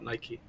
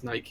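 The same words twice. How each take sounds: First: It is said with an American pronunciation. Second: It is said with a British pronunciation.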